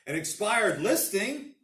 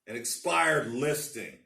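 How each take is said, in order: First: It is said in a bright, cheerful tone. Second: It is said in a plain, matter-of-fact tone.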